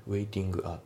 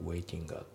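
First: "ウェイティングア" as two separate words, "waitingu a"; katakana-style "ウェイティングア" without linking; unlinked pronunciation. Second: "ウェイティングア" fused as "waitinga"; linked pronunciation. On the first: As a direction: keep A apart in "ウェイティングア". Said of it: "じゃなくて". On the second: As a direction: carry the NG into A in "ウェイティングア". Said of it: "リンキングで". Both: Shown as a demonstration.

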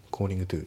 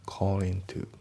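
First: "calling to" as two separate words, g pronounced; "calling to" with the g audible; G fully sounded. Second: "calling to" run together as "callin' to"; "calling to" with no g sound; dropped G. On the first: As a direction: say "calling to" with a clear katakana-style "gu" before "to". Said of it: "じゃなくて". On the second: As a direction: say "calling to" with the final g dropped, linked into "to". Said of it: "コーリングのGが抜けますね". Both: Shown as a demonstration.

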